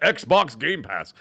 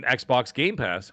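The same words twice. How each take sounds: First: "Xbox Game Pass" very slow with swooping pitch; exaggerated odd emphasis. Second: "Xbox Game Pass" slowed and spelled out deliberately; odd drawn-out emphasis. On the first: Shown as a demonstration. Host mocking his own odd phrasing, exaggerated "Xbox Game Pass". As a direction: overdo each word of "Xbox Game Pass". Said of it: "say it like that". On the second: Real, not acted. Host recalling replaying the game, oddly deliberate "Xbox Game Pass". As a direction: draw out each word of "Xbox Game Pass". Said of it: "I don't know why I had to say it like that".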